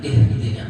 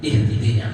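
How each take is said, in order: No difference in how they are said.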